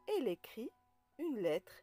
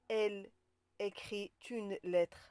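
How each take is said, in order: First: No t sound links écrit to une. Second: A t sound links écrit to une. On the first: The speaker calls it right. "Donc on dit" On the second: The speaker calls it wrong. "On ne dit pas"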